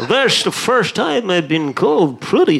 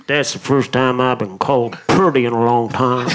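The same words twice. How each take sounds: First: Sean Connery impression. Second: Put-on flirt in a deep Scandinavian accent. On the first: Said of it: "That's Sean Connery now". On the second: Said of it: "revisionist version of this guy".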